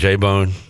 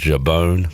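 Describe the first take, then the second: First: The name is said in plain English. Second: The name is said with a French accent.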